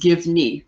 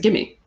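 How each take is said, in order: First: Both words are said fully, with the v sound. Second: The v disappears, blending into one word, gimme.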